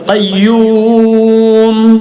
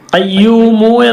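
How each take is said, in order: First: The word ends on a closed m sound. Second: The word ends with a short u vowel. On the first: The reader stops at this word. "വഖഫ് ചെയ്യുമ്പോൾ മീമിന് സുക്കൂൻ കൊടുക്കുക" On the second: The word is read on without stopping. "ഖയ്യൂമു എന്നാണുള്ളത്"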